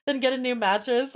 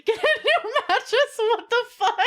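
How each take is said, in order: First: Said in the usual way. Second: High, loud laughing disbelief; incredulous laughing. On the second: Real, not acted. Reacting to chat advice.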